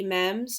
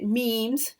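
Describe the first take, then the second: First: "memes" said with a short e, like "mems"; non-American pronunciation. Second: "memes" with a long ee; American pronunciation. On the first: Joking about the word, non-American "memes" with a short e. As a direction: say "memes" to rhyme with gems. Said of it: "or as the Americans say it". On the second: Correcting herself to the American way, "memes" with long ee. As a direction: say "memes" to rhyme with teams. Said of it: "the Americans say it". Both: Shown as a demonstration.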